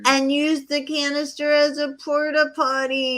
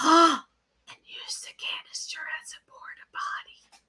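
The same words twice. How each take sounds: First: It is said loudly. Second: It is said quietly.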